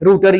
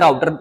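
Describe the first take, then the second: First: The first vowel sounds like 'oo'. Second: The first vowel sounds like 'ow'. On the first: "रूटर या राउटर" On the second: "मैं तो राउटर ही pronounce करता हूं"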